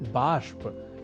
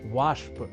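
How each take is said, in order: First: The word begins with a b sound. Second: The word begins with a v sound. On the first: The speaker calls it right. "उसका शुद्ध रूप" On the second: The speaker calls it wrong. "जिसे हम हिंदी में कहते हैं वाष्प"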